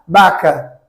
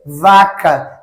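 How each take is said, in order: First: It begins with a B-like sound. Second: It begins with a clear V sound.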